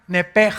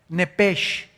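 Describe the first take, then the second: First: The word ends with a harsh throaty sound. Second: The word ends with a soft sh sound. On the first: "las letras S H en el hebreo se pronuncian en hebreo como J" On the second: "así como suena"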